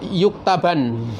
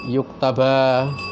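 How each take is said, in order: First: The word ends with an n sound. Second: The word ends with a long a vowel. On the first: "Juga yuktaban" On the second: "dibaca menjadi yuktaba"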